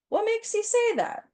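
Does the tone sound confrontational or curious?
curious. It is asked in an open, curious tone. The speaker calls it right.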